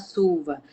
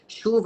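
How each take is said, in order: First: The word begins with an s sound. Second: The word begins with a sh sound.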